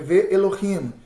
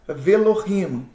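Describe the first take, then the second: First: The conjunction has its own vowel, ve-elohim. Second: The conjunction merges into one syllable, velohim. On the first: The speaker calls it wrong. "eu deveria tomar para si a vogal Segol. Ficaria assim" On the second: The speaker calls it right. "Olha como é que ele vai ficar"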